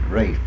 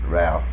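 First: The name is said with the L silent. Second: The name is said with the L sounded. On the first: This is the British way. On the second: This is the local American way.

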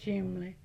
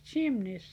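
First: The word is said in a common nonstandard way. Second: The word is said just as it is spelled. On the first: This is how most people around said it. The speaker calls it wrong. "nearly everybody said chimney" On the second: This is the proper way to say it. The speaker calls it right. "but it's chimney, C-H-I-M-N-E-Y"

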